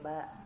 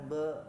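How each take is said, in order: First: The consonant is light, with an open a vowel. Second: The consonant is heavy, with a darkened vowel. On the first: The speaker calls it right. "basmalah we ba gitu" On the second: The speaker calls it wrong. "bukan be gitu ya"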